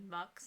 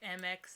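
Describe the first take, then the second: First: It is one syllable with an 'uh' vowel. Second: It is spelled out as two letters. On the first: "some people say Mux" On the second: "some people say M X"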